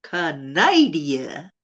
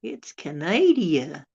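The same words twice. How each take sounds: First: "Canada." dragged very slowly as "Ca-NAI-dia", rising at the end; mangled drawl. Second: Slow, drawn-out "It's Canada."; slow punchline. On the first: Repeating the joke word to viewers, very slow mangled drawl. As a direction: drag out "Canada." very slowly, sounding it "Canaidia" and lifting the end. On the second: Joke teller delivering the punchline to viewers, slow and drawn out. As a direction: let the punchline land slowly. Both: Acted.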